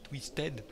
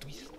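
First: The word ends with an audible -ed syllable. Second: The word ends without an -ed syllable. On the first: The speaker calls it wrong. "moi j'ai envie de dire Insanely Twisted Shadow" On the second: The speaker calls it right. "On dit Twist"

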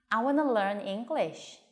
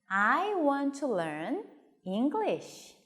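First: 'Want to' is blended into one quick 'wanna'. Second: Both words 'want to' are pronounced in full. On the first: The speaker calls it right. "빨리 말하고 싶을 때는 want to를 wanna" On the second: The speaker calls it wrong. "want to 하니까 조금 불편하잖아요"

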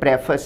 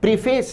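First: The first syllable sounds like 'preh'. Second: The first syllable sounds like 'pree'. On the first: The speaker calls it right. "प्रेफस है" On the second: The speaker calls it wrong. "इस शब्द का उच्चारण प्रीफेस नहीं है"

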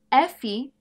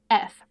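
First: The name has a final vowel after the F. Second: The name ends on the F sound. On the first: "Ao invés de F em português" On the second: "em inglês é F. Você tira esse último som"

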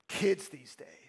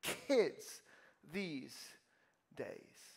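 First: The voice sounds dismissive and disapproving. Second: The voice sounds impressed and admiring. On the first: Young people today are a disappointment. "what tone do you tend to think about it? Is it" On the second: Young people today are amazing. "Or is it, wow"

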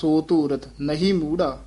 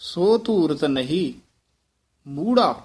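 First: There is no pause after ਨਹੀਂ. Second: There is a pause after ਨਹੀਂ. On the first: The speaker calls it wrong. "ਇਸ ਤਰ੍ਹਾਂ ਨਹੀਂ ਕਹਿਣਾ" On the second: The speaker calls it right. "ਇਹ ਨਹੀਂ ਪਦ ਤੇ ਠਮਕ ਲਾਉਣੀ ਹੈ"

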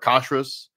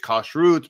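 First: The word ends with an S sound. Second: The word ends with a T sound. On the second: This is the Hebrew form. "in Hebrew it's kashrut"

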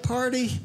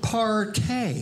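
First: The word ends with an 'ee' sound. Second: The word ends with an 'ay' sound. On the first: "That's a young person's word" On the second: "Some people spice up the word. They pronounce it partay"

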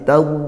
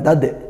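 First: The final consonant is held without a bounce. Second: The final consonant is released with a bounce. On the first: The speaker calls it right. "tapi tad" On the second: The speaker calls it wrong. "jangan dipantulkan, bukan tad"

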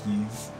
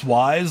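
First: The name sounds like 'yeez', ending in z. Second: The name sounds like the word 'wise'. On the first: "I know it's pronounced Yeez" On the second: "it's pronounced Wise, like in Wisekai"

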